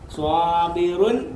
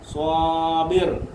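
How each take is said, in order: First: The word ends with the full '-un' ending. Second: The word stops on a bare final 'r'.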